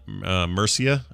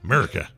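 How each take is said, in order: First: The name is said as Mur-see-a. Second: The name is said as Mur-i-ca. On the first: This is the local way to say the name. "I believe is how you say it" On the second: This is how people here would jokingly say it. "here we would pronounce that Murica"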